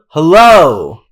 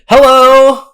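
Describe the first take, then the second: First: The stress is on the second syllable. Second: The stress is on the first syllable.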